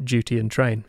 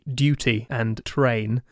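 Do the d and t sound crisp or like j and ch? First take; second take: j and ch; crisp. First: The d and t sound like j and ch. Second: The d and t sound crisp and clear. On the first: This is the speaker's own habitual pronunciation. "But I've got duty and train" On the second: This is the standard British pronunciation. "if you're going towards the RP corner of the world, they would be duty and train"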